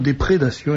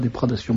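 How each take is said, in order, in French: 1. La deuxième voyelle est un son 'é'. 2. La deuxième voyelle est un son 'a'. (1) "on emploie le mot déprédation" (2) "et non pas déprédation"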